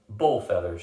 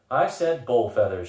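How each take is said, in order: First: Firm, flat-out dismissal of BULL FEATHERS. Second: Slow, louder BULL FEATHERS; emphatic repeat. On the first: Tananda rejecting the escape plan, firmly. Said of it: "she said firmly". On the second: Tananda insisting on her refusal, "bull feathers" slow and emphatic. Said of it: "she s-, repeated". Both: A narrator's reading.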